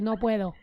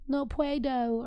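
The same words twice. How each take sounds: First: It is said with a native Spanish accent. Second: It is said with a heavy English accent. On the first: The speaker calls it right. "okay, good" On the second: The speaker calls it wrong. "if he was out here being like"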